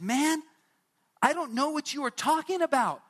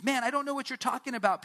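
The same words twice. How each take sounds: First: Much higher and louder, fed up; exasperated denial. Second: Said in the usual way. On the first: Acted. Peter snapping at the third accuser that he doesn't know Jesus. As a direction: throw it back at the accuser, annoyed.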